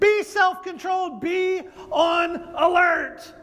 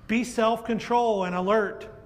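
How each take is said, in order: First: It is said urgently and excitedly. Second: It is said calmly and smoothly.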